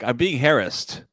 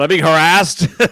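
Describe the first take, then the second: First: It is said quietly and politely. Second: It is said loudly with raised volume. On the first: "you said very polite" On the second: "your volume went up"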